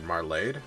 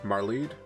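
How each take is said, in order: First: The second vowel is an 'ay' sound. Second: The second vowel is an 'ee' sound. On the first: "it'd probably be an A noise" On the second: "I think we're going with Marleed is the pronunciation"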